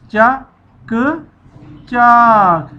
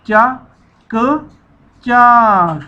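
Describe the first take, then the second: No difference in how they are said.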